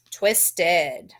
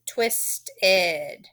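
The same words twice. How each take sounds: First: Said in the usual way. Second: "twisted" as twist, then a separate "ed"; suffix split off. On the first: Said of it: "you are gonna circle your suffix". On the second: Shown as a demonstration. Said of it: "then we're gonna add our suffix".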